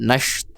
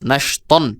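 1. শব্দটি একটি দীর্ঘ, টানা স্বরধ্বনি দিয়ে শেষ হয়। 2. শব্দটি একটি হ্রস্ব স্বরধ্বনি আর তার পরে 'ন' দিয়ে শেষ হয়।

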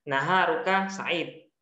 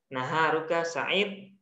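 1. Kata terakhir diakhiri dengan konsonan mati. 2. Kata terakhir diakhiri dengan konsonan mati.

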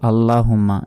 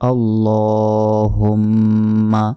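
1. 'lla' ধ্বনিটি ছোট, নাকের টান ছাড়া। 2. 'lla' ধ্বনিটি দীর্ঘ করে টানা হয়, 'hum' নাকি সুরে উচ্চারিত হয়। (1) "এটা ভুল।" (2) "আল্লাহ লতে এক সেকেন্ড টান দিতে হবে, হুম গুণনা হবে।"

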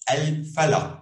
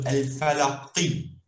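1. A palavra termina em consoante, sem vogal. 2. A palavra termina com a vogal curta i. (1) "a letra que finaliza uma frase pode ser muda, sem vocal" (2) "Tem o um acento embaixo do qa, então seria qi"

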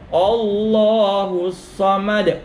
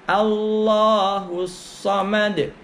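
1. Vokal pertama dibaca seperti 'o'. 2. Vokal pertama dibaca seperti 'a'. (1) "Jangan keliru membacanya o" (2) "Yang betul a"

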